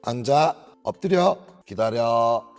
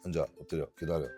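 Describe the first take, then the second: First: The commands are said at a higher pitch. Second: The commands are said at a lower pitch. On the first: The speaker calls it right. "톤을 평소보다 한 음정 높게 이야기하면 알아듣기가 쉬워요" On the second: The speaker calls it wrong. "하나도 못 알아들어요"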